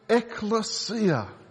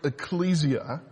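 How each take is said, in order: First: The stress is shifted to a different syllable. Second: The stress falls on the usual syllable. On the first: "They shifted the inflection to bring it back to the pronunciation of the original word" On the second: "made a deliberate choice to not pronounce it ecclesia"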